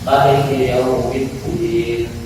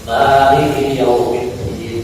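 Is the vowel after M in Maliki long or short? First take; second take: short; long. First: The vowel after M is kept short. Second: The vowel after M is drawn out long. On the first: "boleh dibaca pendek" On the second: "kalau kita biasanya yang panjang"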